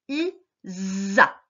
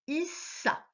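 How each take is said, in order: First: The middle consonant is a buzzing z sound. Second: The middle consonant is a hissing s sound. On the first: The speaker calls it right. "ça va se prononcer I-za" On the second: The speaker calls it wrong. "Et non pas I-sa"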